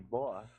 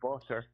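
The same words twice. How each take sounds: First: The T in the middle is softened. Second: The T in the middle is crisply pronounced. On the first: "I say butter" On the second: "now I'm saying butter"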